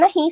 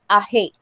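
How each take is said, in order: First: The final vowel is a clear i sound. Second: The final vowel sits between i and e. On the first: "no dicen ají" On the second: "sino aje"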